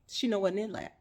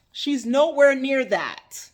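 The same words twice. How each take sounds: First: Said in the usual way. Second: "She's nowhere near that" slow, loud, each word pounded; emphatic repeat. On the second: Real, not acted. Preacher insisting on the good wife's purity, slow and loud. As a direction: drive "nowhere" home slowly.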